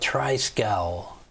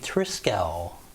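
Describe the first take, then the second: First: The first vowel differs from the vowel in trim. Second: The first vowel sounds like the vowel in trim. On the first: The speaker calls it wrong. "I always want to call it" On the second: The speaker calls it right. "the pronunciation is actually Triskel. Tri like as, as in trim"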